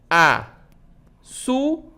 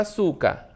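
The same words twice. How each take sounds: First: "açúcar" split into a, çú, car with long pauses; very slow, each syllable of "açúcar" standing alone. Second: Said in the usual way. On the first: Shown as a demonstration. Teacher separating the word for pupils, syllable by syllable. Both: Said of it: "Quando eu separo a palavra açúcar".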